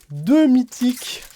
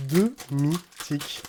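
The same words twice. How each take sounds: First: High, loud, drawn-out amazement; excited exclamation. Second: Drawn-out, syllable by syllable; slow stunned repeat. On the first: Opening cards and finding two mythics, excited exclamation. Excited reaction to card pull. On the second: Repeating the rare card pull to himself, slow and stunned. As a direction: let each syllable of "deux mythiques" land slowly. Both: Real, not acted.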